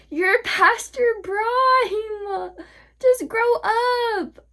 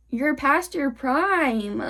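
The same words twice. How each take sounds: First: Very high, long drawn-out mock cry; mocking wail. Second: Slow, stretched-out jab; drawn-out taunt. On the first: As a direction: wail it slowly to taunt them. Taunting repeat, mock wailing. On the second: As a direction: drag the words out to taunt. Taunting older people, first take. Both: Real, not acted.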